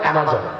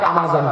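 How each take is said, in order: First: The first vowel is a flat 'a' sound. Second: The first vowel is an open 'ah' sound. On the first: This is the real pronunciation. The speaker calls it right. "আসল উচ্চারণ অ্যামাজন" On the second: This is how people commonly say it. The speaker calls it wrong. "আপনারা যাকে আমাজন বলেন"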